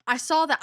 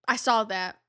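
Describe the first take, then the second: First: "saw" lifted high and louder; stress on saw. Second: Said in the usual way. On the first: Shown as a demonstration. Insisting to viewers she spotted it, stressed. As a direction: lean up on "saw". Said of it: "I saw that months".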